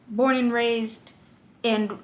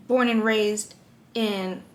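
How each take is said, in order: Both takes have the same delivery.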